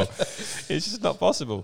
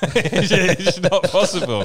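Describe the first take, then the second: First: Slow, softer, laughing; quiet laughing repeat. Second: Louder laughing delivery. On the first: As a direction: let it fade slowly through laughter. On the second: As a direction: laugh through the words. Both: Real, not acted.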